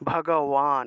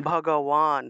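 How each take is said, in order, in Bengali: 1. শেষ অক্ষরের আগের ব্যঞ্জনটি w-এর মতো শোনায়। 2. শেষ অক্ষরের আগের ব্যঞ্জনটি w-এর মতো শোনায়।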